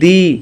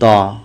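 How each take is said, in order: First: The word ends in an 'ee' vowel. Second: The word ends in an 'uh' vowel. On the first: The next word starts with a vowel sound. "Vowel sound দিয়ে, তাহলে দি উচ্চারণ করব।" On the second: The next word starts with a consonant. "দা উচ্চারণ হবে কখন? যদি শব্দটা consonant দিয়ে শুরু হয়।"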